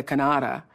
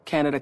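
First: Canada said as "ka-NAH-da"; mispronounced Canada. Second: Said in the usual way. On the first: Retold or imitated. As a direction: stress the middle of Canada with a broad "ah". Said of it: "and I caught myself".

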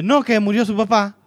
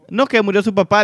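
First: High, loud blunt delivery of the bad news; blunt grandmother again. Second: High, loud blunt announcement of a death; just drop the news flatly, like a tactless grandmother. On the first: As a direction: blurt it out with no cushioning. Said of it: "pero sí dice". (la abuela lo dice de golpe, aguda y fuerte) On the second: Retold or imitated. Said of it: "le dice mi abuela así". (la abuela suelta la noticia sin rodeos, aguda y fuerte)

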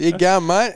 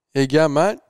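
First: Much higher and louder cheery greeting; classic Kiwi bar greeting, bigger. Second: Loud, higher, hearty mate greeting; classic Kiwi bar greeting. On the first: Speaker re-enacts the bar stranger's hearty welcome. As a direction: play up the friendly local. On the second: Bar stranger greets the speaker loudly and cheerfully. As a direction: call it out like a friendly local. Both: Retold or imitated. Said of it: "You know, the classic".

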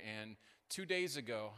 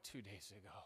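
First: Said in the usual way. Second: Much softer, lower, in a small timid voice; imitating the girl. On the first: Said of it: "I'm like, "Two days ago". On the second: Pastor imitating the injured volleyball player, soft and meek. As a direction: echo the athlete's small meek voice. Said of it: "I'm like".

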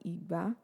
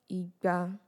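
First: "Igba" low first syllable, high second like do-mi; fall, then rise on "Igba". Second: "Igba" level, both syllables mid like re-re; level neutral tone. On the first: Teacher contrasting the garden egg word, low-then-high tone on "Igba". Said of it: "That would be domi". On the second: Teacher demonstrating two hundred, level mid tone on "Igba". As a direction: keep "Igba" even on one middle note. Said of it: "re, re". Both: Shown as a demonstration.

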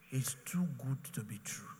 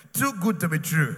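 First: Breathy hushed whisper, TOO stretched. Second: Shouted, TOO punched hard; loud declaration. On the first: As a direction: whisper it like a secret wonder. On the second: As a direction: proclaim it to the whole hall. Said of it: "many of you are even saying it". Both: Shown as a demonstration.

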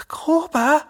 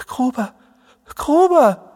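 First: High, strained questioning call; hoarse call. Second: High calls, the second much louder; helpless calling. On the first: Jerome calling to his friend who has just collapsed, hoarsely. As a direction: call the name in hoarse alarm. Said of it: "ruft er heiser". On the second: Jerome helplessly calling his unconscious friend, crying out. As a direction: call the name helplessly, rising to a cry. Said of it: "Jerome steht ratlos mit hängenden Händen und ruft". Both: A narrator's reading.

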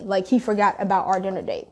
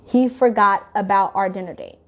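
First: Said in the usual way. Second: Repeating it pointedly, stressing He forgot about our dinner date; emphasized. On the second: Shown as a demonstration. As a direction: lay deliberate weight on forgot and dinner date. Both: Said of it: "I'm just gonna emphasize that".

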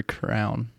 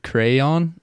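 First: "crown" as crayon squashed into one syllable. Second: "crayon" said in two syllables, CRAY-on. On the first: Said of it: "you're eliminating a syllable". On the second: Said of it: "Is it crayon or crown". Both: Shown as a demonstration.

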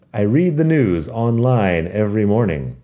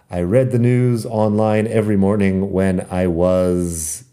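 First: "read" said like reed, long ee. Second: "read" said like red, short e. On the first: Teacher models "read" as reed for Spanish learners. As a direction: say "read" as present tense, reed. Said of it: "es presente simple". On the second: Teacher shows the past "read" as red in context. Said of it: "cambia la pronunciación de read a read". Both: Shown as a demonstration.

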